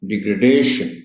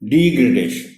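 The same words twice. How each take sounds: First: The stress is on the third syllable. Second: The stress is on the first syllable. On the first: The speaker calls it right. "Stress इसमें दूसरी D पर है" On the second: The speaker calls it wrong. "Stress पहली D पर दे जाते हैं"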